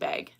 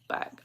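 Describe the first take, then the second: First: Bag is said with a Canadian vowel. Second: Bag is said with an American vowel. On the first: The speaker calls it wrong. "people make fun of me for saying bag funny" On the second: The speaker calls it right. "apparently it's supposed to be like bag"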